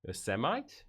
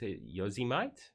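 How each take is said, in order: First: Yosemite as a questioning "oh-SEM-ite"; trying out Yosemite. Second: Yosemite as a slow, questioning "YO-zee-mite"; second guess at Yosemite. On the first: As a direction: try Yosemite as "uh-SEM-ite", rising at the end. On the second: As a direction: stretch Yosemite into "yo-zi-mite", unsure. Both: Shown as a demonstration. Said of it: "I obviously pronounce Yosemite wrong".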